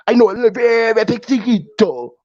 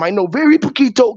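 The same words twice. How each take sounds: First: Put-on Spanish accent. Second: Said in the usual way. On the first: Telling the translator he knows poquito, in a hammed-up Spanish accent. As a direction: stretch "very" and ham up "poquito" in mock Spanish. Exaggerated retake of the poquito line.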